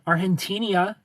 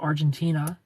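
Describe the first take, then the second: First: The g is pronounced like an h. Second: The g is pronounced like a j. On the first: "makes an H sound" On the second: "instead of Argentina"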